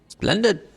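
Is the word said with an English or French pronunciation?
English. It is said with an English-sounding pronunciation. "I always think it's in the spy's voice. ... that's not spy"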